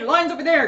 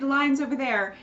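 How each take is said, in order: First: It is said in a blunt, rude tone. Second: It is said in a friendly, apologetic tone. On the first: The speaker is dismissing and ordering the listener away. "how direct and rude she was" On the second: The speaker is being helpful and courteous. "not, oh, hey, sorry"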